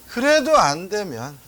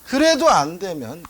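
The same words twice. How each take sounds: The two takes are said the same way.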